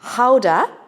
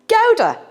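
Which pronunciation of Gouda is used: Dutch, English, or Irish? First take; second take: Dutch; Irish. First: The word has the Dutch pronunciation. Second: The word has a merged Irish pronunciation. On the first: "The Dutch pronounce it Gouda" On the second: "here in Ireland, we've somehow merged it and we call this Gouda"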